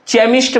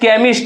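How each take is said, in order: First: The word begins with a ch sound. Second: The word begins with a k sound. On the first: The speaker calls it wrong. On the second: The speaker calls it right.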